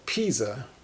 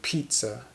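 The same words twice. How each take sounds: First: The middle consonant has no T sound. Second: The middle consonant has a T sound. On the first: The speaker calls it wrong. "you might think it's spelled pizza because there's no T" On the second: The speaker calls it right. "we pronounce the word as if it has a T"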